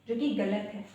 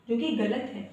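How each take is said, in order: The two takes are said the same way.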